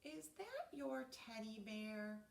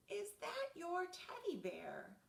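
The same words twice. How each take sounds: First: Said in the usual way. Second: Asked again louder and higher; louder, higher repeat. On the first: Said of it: "I asked". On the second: Acted. Narrator repeats question to sleepy Reggie, louder. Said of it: "I said".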